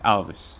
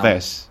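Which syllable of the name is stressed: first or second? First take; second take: first; second. First: The stress is on the first syllable. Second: The stress is on the second syllable. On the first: The speaker calls it right. "and it's Alves" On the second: The speaker calls it wrong. "you've been saying Dani Alves, Alves"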